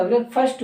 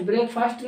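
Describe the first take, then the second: First: ब्रेकफास्ट as brek-fust; short vowel. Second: ब्रेकफास्ट as break-faast; long A. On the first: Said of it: "ब्रेकफास्ट होता". (ब्रेकफास्ट को ब्रेकफस्ट बोलें) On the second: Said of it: "ब्रेकफास्ट नहीं होता". (ब्रेकफास्ट में लंबा आ) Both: Shown as a demonstration.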